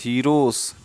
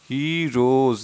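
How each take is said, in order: First: The word ends with an s sound. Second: The word ends with a z sound. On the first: The speaker calls it wrong. "Not हीरोस" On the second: The speaker calls it right. "हीरोज, not हीरोस"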